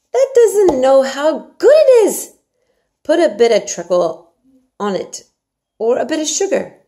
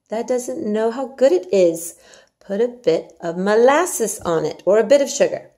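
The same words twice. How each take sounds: First: Yorkshire maid Martha. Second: A touch higher and louder, lighter Martha voice; Yorkshire maid Martha, milder. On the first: Martha urges Mary to eat her porridge, hearty and coaxing. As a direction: coax the child like a bossy country servant. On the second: Martha repeats her coaxing for the listener, lighter. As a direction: coax again, less hammed. Martha's line reread with molasses. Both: Acted.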